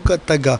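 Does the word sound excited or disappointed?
excited. The word is said in an excited, lively way. Tonight is going to be great. "ce soir c'est chaud"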